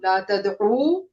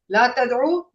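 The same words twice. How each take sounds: First: The final vowel is stretched for two counts. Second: The final vowel is said short. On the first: A group is told not to call upon. "you all don't call upon" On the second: One person is told not to call upon. "don't call upon"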